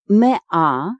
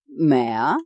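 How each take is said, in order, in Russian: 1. Слово произносится тщательно и полностью. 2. Слово произносится небрежно, сокращённо.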